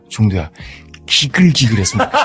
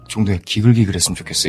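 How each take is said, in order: First: It is said with strong, expressive emotion. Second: It is said flatly, without emotion.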